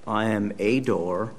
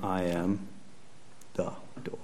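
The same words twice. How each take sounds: First: "a" stressed as a full "ay". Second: Pause, then "the" set apart, very soft; quiet, simple statement with "the" singled out; stress on THE. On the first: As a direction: say "a" as a separate, full-vowel word. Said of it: "he's not saying". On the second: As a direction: hold back before a hushed "the door". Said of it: "He's just simply saying". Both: Shown as a demonstration.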